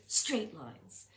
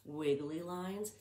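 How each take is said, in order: First: Even, level pitch with no wobble; steady one-note delivery; straight voice. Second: Slow, wavy, up-and-down voice; drawn-out wobbly sing-song; wiggly voice. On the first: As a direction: say it flat like a ruler line. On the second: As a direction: let the voice wiggle like the line. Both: Shown as a demonstration. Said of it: "Do you hear my pattern?".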